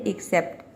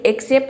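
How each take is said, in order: First: The word begins with a short light 'ih' vowel. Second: The word begins with an open 'eh' vowel. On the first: The speaker calls it right. "ये होता है एक्सेप्ट" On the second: The speaker calls it wrong. "एक्सेप्ट नहीं होता है"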